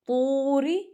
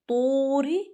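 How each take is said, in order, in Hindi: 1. पहला स्वर लंबा खींचकर बोला गया है। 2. पहला स्वर लंबा खींचकर बोला गया है।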